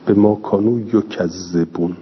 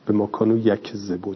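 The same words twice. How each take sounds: First: یکذبون said yo-kaz-ze-bun with doubled z; yukadhdhibun reading. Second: یکذبون said yakzebun, light k, no doubled z; yakdhibun reading. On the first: Teacher reads the doubled تشدید variant یکذبون to students. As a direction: read یکذبون as yu-kadh-dhi-bun, the z doubled. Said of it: "تکذیب". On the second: Teacher reads the light variant یکذبون to students, plain. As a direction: read یکذبون as yak-ze-bun, short unstressed z. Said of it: "یکذبون بگیم یا یکذبون بگیم". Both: Shown as a demonstration.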